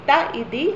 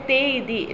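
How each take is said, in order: First: The vowel before iti is a short a. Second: The vowel before iti is a long e. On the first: "രണ്ടും ശരിയാണ് കേട്ടോ" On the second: "രണ്ടും ശരിയാണ് കേട്ടോ"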